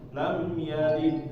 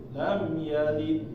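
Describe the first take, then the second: The two takes are said the same way.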